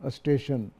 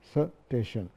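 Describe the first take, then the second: First: The word starts with an added vowel before 's'. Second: The word starts directly with an 's' sound. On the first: "उसके पहले एक लफ्ज़ लगाते थे अलिफ" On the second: "सा के ऊपर कोई हरकत नहीं है"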